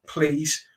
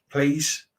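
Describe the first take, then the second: No difference in how they are said.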